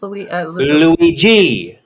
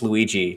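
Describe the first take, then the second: First: The name is said with an Italian accent. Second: The name is said with a plain American accent. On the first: "I had a code switch real quick" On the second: "I think it's just Luigi"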